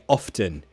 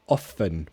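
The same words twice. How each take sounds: First: The T sound is pronounced. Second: The T sound is silent. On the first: "sometimes if I'm speaking more slowly, then I'll say often" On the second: "I say often without a T"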